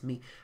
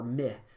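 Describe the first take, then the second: First: The vowel sounds like ee. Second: The vowel sounds like eh. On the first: The speaker calls it right. "We actually say me" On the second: The speaker calls it wrong. "they'd say meh or my"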